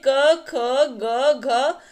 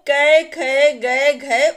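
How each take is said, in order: First: The letters end in a short 'a' vowel. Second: The letters end in an 'ai' vowel. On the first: The speaker calls it right. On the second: The speaker calls it wrong.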